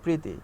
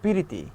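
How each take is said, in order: First: The word opens with a tight pr cluster. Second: A vowel splits the opening cluster into pi-ri. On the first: It is the standard form of the word. "শুদ্ধ ভাষায় যখন আমরা কথা বলি তখন বলি" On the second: It is the regional form of the word. "আঞ্চলিক ভাষায় কথা বলবেন তখন আপনি বলবেন"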